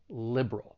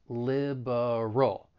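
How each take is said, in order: First: The middle vowel drops, leaving two syllables. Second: The word has three syllables. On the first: "the schwa sound in the middle may elide. And now we're left with just two syllables" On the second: "you may say it with three syllables"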